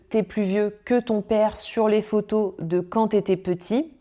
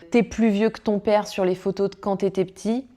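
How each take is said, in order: First: The E vowels are pronounced. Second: Several E vowels are dropped. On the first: "au lieu de" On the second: "ces élisions"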